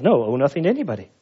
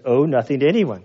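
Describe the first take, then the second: First: Rattled off quickly as if obvious; quick mock-literal reading; fast, insistent. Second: Said in the usual way. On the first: Shown as a demonstration. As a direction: hammer it home fast. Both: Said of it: "Can you make it say anything else?".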